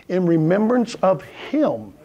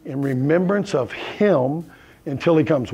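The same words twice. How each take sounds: First: In remembrance of him, slow, with REMEMBRANCE stressed; slow emphatic repeat. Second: Said in the usual way. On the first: Shown as a demonstration. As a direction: lean hard on remembrance, drawn out slowly.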